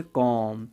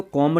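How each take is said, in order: First: "कॉम" ending on a long M, no B; silent B. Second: "कॉम" with an audible B added, komb; wrong B-sounded pronunciation. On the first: Teacher models the correct word for learners, "कॉम" with silent B. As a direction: close "कॉम" on the M. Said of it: "इसको क्या बोलेंगे". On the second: Teacher shows learners what to avoid, "कॉम" with final B. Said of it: "नहीं बोलेंगे". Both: Shown as a demonstration.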